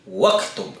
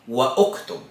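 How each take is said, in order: First: Wa runs straight into ktub with no u. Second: A separate u vowel is pronounced before ktub. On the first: The speaker calls it right. "ang tamang pagbigkas po niyan ay waktub" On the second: The speaker calls it wrong. "So mali po kung sasabihin natin wa uktub"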